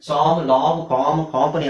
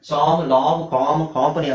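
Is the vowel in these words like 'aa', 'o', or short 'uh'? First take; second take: aa; aa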